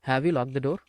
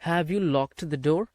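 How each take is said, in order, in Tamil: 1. 'Locked' கடைசியில் t ஒலி இல்லாமல் சொல்லப்படுகிறது. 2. 'Locked' கடைசியில் தெளிவாக வெளிவரும் t ஒலி உண்டு. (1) "have you லாக் the door அப்படின்னு பேசுங்க" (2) "ரொம்ப அப்படி கஷ்டப்பட்டுக்கிட்டு ... பேச வேண்டாம்"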